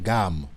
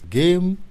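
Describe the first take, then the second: First: It is said with a French pronunciation. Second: It is said with an English pronunciation. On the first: It means a harmony or musical scale. "ça peut se prononcer gamme, en français" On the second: It means a game. "Le mot game, en anglais"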